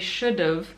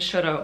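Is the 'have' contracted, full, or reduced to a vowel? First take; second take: contracted; reduced. First: The second word shrinks to a short 'v' sound. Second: The second word shrinks to a short vowel sound. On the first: "in spoken language, you would use a contraction" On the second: "when you're speaking really quickly, sometimes it comes out kind of like that"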